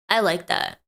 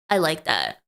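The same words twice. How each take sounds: First: A hint of a funny voice on the repeat; slightly put-on voice. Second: Said in the usual way. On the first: Shown as a demonstration. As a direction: savour the line lightly in a voice.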